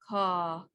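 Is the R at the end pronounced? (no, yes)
no. The word ends without an R sound. "British version first"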